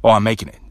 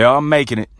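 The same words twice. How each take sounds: First: Making it happen. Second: A light, slightly higher, resigned "making it"; just getting by. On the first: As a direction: say it like you're in charge of the result. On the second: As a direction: say it like you're barely scraping through. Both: Shown as a demonstration. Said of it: "same words, different tone".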